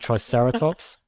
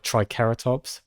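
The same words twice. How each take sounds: First: The second syllable starts with an s sound. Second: The second syllable starts with a k sound. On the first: This is the familiar everyday form. "I'm gonna keep saying triceratops" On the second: This follows the original Greek. "It's like a hard C"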